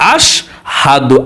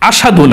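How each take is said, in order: First: The word is said with a clear h sound. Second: The word is said without an h sound. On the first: The speaker calls it right. "আস হাদু বলতে হবে" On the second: The speaker calls it wrong. "অনেকে বলেন আসাদু ... না"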